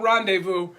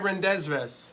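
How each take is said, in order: First: It is said the usual, French-like way. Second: Every letter is sounded as it is spelled. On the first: "I don't rendezvous" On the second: "I like to spell things the way they're spelled. That's why I say rendezvous"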